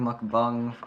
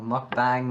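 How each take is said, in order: First: "mukbang" said as "muk-bong"; "mukbang" ending like "bong"; alternate pronunciation. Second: "Mukbang" with an "ah" in bang; "Mukbang" rhyming its end with "hang"; alternate pronunciation. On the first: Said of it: "I think it's a mukbang". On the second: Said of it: "I don't know". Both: Shown as a demonstration.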